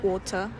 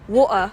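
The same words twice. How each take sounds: First: The middle T is a clear, released t. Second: The middle T is replaced by a glottal stop. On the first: "practice the T sound first" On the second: "the Cockney accent, then practice the glottal T"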